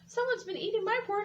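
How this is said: A small, teeny tiny crying voice.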